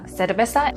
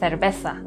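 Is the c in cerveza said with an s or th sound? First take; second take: s; th. First: The c is pronounced like an s. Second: The c is pronounced like a th. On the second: "en España"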